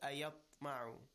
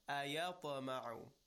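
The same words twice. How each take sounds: First: The stopped consonant is held with no echoing bounce. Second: The stopped consonant is released with an echoing bounce. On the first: The speaker calls it wrong. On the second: The speaker calls it right. "keep in mind that at the beginning we have qalqala"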